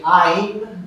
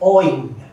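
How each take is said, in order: First: The vowel sounds like 'ai', other regions. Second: The vowel sounds like 'oi', Bengali style.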